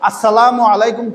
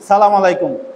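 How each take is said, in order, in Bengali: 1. শুভেচ্ছাটি 'salamu'-এর আগে 'as' দিয়ে শুরু হয়। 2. শুভেচ্ছাটি সরাসরি 'salam' দিয়ে শুরু হয়। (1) "আসসালামু আলাইকুম কই তারে না" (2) "অনেকে কয় সালাম আলাইকুম"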